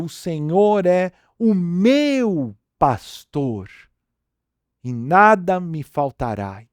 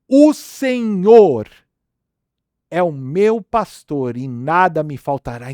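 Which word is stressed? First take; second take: meu; Senhor. First: The stress is on "meu". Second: The stress is on "Senhor".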